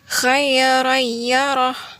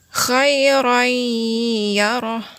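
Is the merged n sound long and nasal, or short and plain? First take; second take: short plain; long nasal. First: The merged n is short with no nasal hum. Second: The merged n is nasalized and held two beats. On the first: The speaker calls it wrong. "tidak dikasih dengungan dulu dan ditahan dulu dua harokat" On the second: The speaker calls it right. "yang disertai dengan dengung dan ditahan dua harokat"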